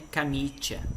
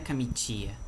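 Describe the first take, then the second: First: The i before the final vowel is unstressed. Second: The i before the final vowel is stressed. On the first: The speaker calls it right. "o i aqui ele não é tônico" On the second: The speaker calls it wrong. "não é camitia"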